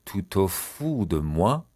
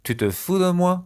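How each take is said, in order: First: "Tu te fous de moi" stretched, rising at the end; slow demonstration. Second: Said in the usual way. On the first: Shown as a demonstration. Teacher repeating a French question slowly for learners. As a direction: draw out "fous", lift on "moi".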